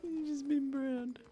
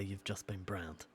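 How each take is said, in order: First: Cracking up mid-line, high and slow; laughing catchphrase. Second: Mock catchphrase. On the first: Acted. He finally says the promised catchphrase, laughing. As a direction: laugh through browned. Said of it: "Pick my moment". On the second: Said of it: "never going to say".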